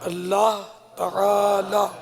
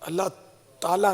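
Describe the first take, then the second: First: The phrase is slow, with each sound clear. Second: The phrase is rushed, with its sounds blurred. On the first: The speaker calls it right. "इसकी खूब प्रैक्टिस करनी चाहिए" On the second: The speaker calls it wrong. "अल्लाह ताला नहीं है"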